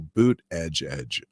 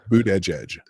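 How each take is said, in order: First: The name is said slowly. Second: The name is said at normal speed.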